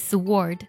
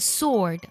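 First: A w sound follows the s. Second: The s goes straight into the vowel. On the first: The speaker calls it wrong. "而不是sword" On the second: The speaker calls it right. "字母w 是不发音的，它读作sword"

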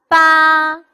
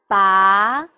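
First: The pitch stays high and level. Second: The pitch rises from middle to high.

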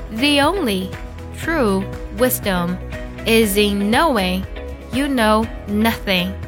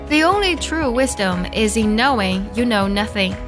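First: The sentence is read slowly and carefully. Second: The sentence is read at a normal pace.

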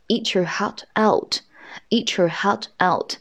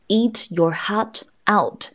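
First: Eat and your are run together into one. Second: Eat and your are said as separate words. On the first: "我们把这个eat 和your 啊做了一个连读的处理" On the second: "其实它的完整读音应该是什么呀？"

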